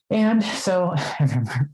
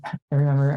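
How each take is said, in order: First: A real laugh breaks into the words. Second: Said in the usual way. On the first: Real, not acted. Telling a friend about flirting, laughing. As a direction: giggle through the start of the memory.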